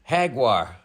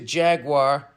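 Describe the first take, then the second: First: It is said in a Spanish pronunciation. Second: It is said in an American pronunciation. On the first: "in Spanish it's pronounced Jaguar" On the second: "stick to Jaguar and you're good to go"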